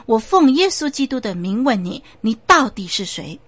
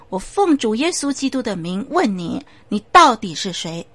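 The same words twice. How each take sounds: First: Louder, forceful demand; stern command. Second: Firm command, louder at the end; commanding pastor. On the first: The pastor repeats his demand louder, stern and forceful. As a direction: press the spirit harder. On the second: The pastor demands in Jesus' name who the voice is, firm. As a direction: demand the spirit name itself. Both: Acted.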